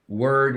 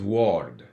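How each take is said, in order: First: The vowel sounds like the one in bird. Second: The vowel sounds like the one in ward.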